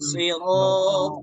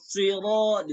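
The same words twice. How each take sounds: First: The s is said without pushing the lips forward. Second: The s is said with lips pushed forward. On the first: The speaker calls it right. "yang sempurna, yang betul" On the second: The speaker calls it wrong. "Dimonyong-monyongin. Nah, itu pada salah itu"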